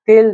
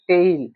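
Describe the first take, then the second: First: The t is soft and dental, Marathi-style. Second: The t is hard and retroflex, English-style. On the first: The speaker calls it wrong. "हे तेल झालं हे टी ते ल असं नाही म्हणत" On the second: The speaker calls it right. "उच्चार काय होते टेल"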